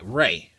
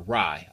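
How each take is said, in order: First: The vowel does not match the end of samurai. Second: The vowel matches the end of samurai.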